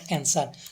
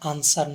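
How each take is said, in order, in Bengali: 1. প্রথম স্বরধ্বনিটি 'cat' শব্দের মতো শোনায়। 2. প্রথম স্বরধ্বনিটি একটি খোলা 'ah' ধ্বনি। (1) "নট অ্যান্সার" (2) "সঠিক প্রনাউন্সিয়েশনটা হবে আনসার"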